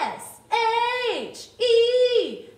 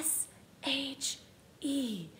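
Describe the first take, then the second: First: The letters sound loud like a rock star. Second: The letters are whispered.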